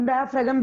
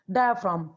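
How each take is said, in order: First: डायाफ्रागम with an extra "gam" ending; alternative pronunciation. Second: Said in the usual way. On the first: Shown as a demonstration. Teacher showing students how some people say it, डायाफ्रागम with added g. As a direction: say डायाफ्रागम, the last part split into "fra-gam". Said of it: "कुछ लोग डायाफ्रागम भी बोलते हैं". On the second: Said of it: "इसको कुछ लोग डायाफ्रागम भी बोलते हैं".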